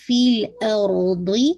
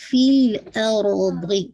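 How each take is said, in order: First: فِي الْأَرْضِ slow, ض heavy at the end; slow recitation of فِي الْأَرْضِ; heavy dad. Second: فِي الْأَرْضِ slow, ر full and heavy; slow recitation of فِي الْأَرْضِ. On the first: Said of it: "ضاد کو ہے، ہیوی رکھیے گا". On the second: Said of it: "را کو ہیوی کیجیے گا". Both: Shown as a demonstration.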